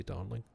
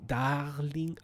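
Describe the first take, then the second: First: Said in the usual way. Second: Higher French-accented darling, rising at the end. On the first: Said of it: "why can I not think of how". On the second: Shown as a demonstration. Tweaked darling for the letter, French accent. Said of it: "Had to, had to tweak it".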